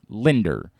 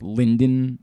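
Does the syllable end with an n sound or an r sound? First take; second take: r sound; n sound. First: The syllable ends with an r sound. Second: The syllable ends with an n sound. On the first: The speaker calls it right. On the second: The speaker calls it wrong. "A lot of people struggling with Linden. It's not Linden"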